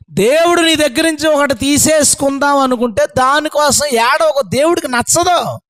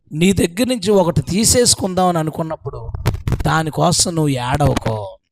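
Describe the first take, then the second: First: "ఏడవకో" driven home high and forceful; raised-pitch insistence through "దేవుడికి నచ్చదు"; emphatic repeat. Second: Said in the usual way. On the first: Shown as a demonstration. Same lesson repeated with force.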